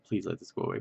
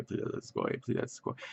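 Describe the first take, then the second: First: Said in the usual way. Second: Soft whispered begging in pain; a hushed plea for the pain to go away; pleading whisper. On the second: Retold or imitated. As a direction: whisper it like a desperate prayer. Pain after surgery, praying.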